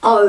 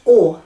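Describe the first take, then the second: First: O as the gliding English oh. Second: O as a pure vowel like or, no glide; Māori o. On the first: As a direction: round it off as oh. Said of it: "like it is in English". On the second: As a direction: hold a steady or sound for o. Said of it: "It's always o". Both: Shown as a demonstration.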